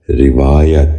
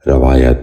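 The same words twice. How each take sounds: First: روایت said "rivaayat", short "i" after the r; correct pronunciation. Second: روایت said "ravaayat", with an "a" after the r; mispronounced vowel. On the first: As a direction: open روایت with "ri", then long "vaa". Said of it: "درست تلفظ ہے". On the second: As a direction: open روایت with "ra" instead of "ri". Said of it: "یہ غلط تلفظ ہے". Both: Shown as a demonstration.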